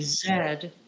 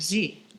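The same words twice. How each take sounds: First: It is said the Canadian way, 'zed'. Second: It is said the American way, 'zee'.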